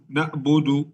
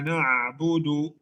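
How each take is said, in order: First: The middle consonant is a glottal stop hamzah. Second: The middle consonant is a throaty ain sound. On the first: The speaker calls it wrong. "hamzah. Ini bukan ain. Jadi ini kesalahan besar" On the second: The speaker calls it right. "Kalau kita saat keluarkan ain"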